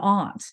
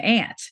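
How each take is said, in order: First: The vowel is a long open 'ah' sound. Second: The vowel is the short 'a' of cat. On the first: "in British English, you have, or Southern British English, I should say, you have an aunt" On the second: "But in American English, you have an ant"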